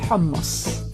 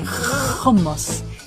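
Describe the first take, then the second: First: The opening h sounds Semitic. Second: The opening h sounds German-like. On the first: This is how Semitic languages say it. "instead of hummus" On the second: This is how Israeli Hebrew says it. "they sound more German, for instance, when they say hummus"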